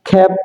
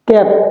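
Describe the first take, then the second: First: The first k sound has a puff of air. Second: The first k sound has no puff of air. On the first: The speaker calls it right. "Correct যে pronunciation" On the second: The speaker calls it wrong. "তারপরে বলতাম ক্যাপ"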